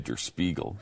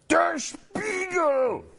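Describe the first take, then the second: First: The name is said in a plain, calm voice. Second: The name is barked out loudly and harshly. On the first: The speaker calls it wrong. "You can't just say Der Spiegel. That doesn't work" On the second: The speaker calls it right. "That's how you have to say it"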